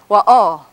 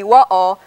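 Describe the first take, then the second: First: The stress is on the second syllable. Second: The stress is on the first syllable. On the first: This is how some other speakers say it. "with the accent over here on this syllable" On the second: This is how most speakers say it. "with the accent on the first syllable"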